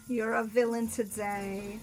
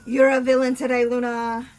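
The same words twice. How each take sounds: First: Slow, drawn-out, at normal volume; slow repeat. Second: Loud accusation. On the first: Repeating the villain charge to Luna, slowly drawn out. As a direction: stretch the words out as the volume settles. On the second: Listener's villain charge aimed at Luna, loudly called out. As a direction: belt out the accusation. Mock outcry, said twice, loud then slow. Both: Real, not acted.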